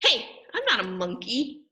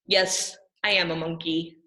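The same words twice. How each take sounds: First: Protesting, a little outraged; indignant protest. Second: Grudging, lower admission; reluctant admission. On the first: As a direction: object as if tricked into saying it. Reader protests the forced words. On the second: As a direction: give in and say it grudgingly. Reads forced line reluctantly. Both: Acted.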